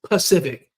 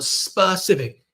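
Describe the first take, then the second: First: The word begins without the s sound. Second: The word begins with a clear s sound. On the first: The speaker calls it wrong. "they'll keep dropping a sound" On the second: The speaker calls it right. "And you go"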